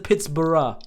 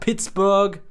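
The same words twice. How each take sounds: First: The ending sounds like the end of 'Edinburgh'. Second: The ending is a plain 'burg' sound.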